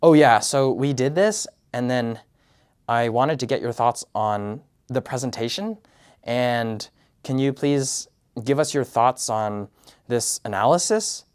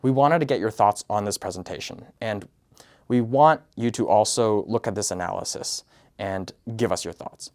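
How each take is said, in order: First: Every phrase ending on a hopeful upward lilt, "analysis" rising like a question; tentative upward tone on "wanted" and "analysis"; uptalk. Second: "wanted" and "thoughts" falling firmly at each phrase end; downward tone. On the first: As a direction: sound unsure, asking permission with rising ends. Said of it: "I'm constantly like". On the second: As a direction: direct and prescriptive, statements landing down. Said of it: "you should be saying it as". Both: Shown as a demonstration.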